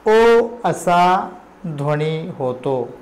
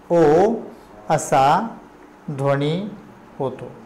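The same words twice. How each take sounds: First: Said in the usual way. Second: ओ, असा, ध्वनी, होतो each said alone with a pause after; word-by-word dictation. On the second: Shown as a demonstration. Teacher dictating ओ असा ध्वनी होतो to the class, one word at a time.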